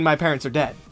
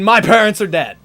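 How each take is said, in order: First: It is a gravelly Batman-style voice. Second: It is a plain scream.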